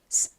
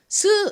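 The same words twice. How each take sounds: First: The vowel after the s is weak and faint. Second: The vowel after the s is strong and full. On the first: The speaker calls it right. "약하게 스" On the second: The speaker calls it wrong. "이 모음 소리를 세게 발음하는 것이 아니라"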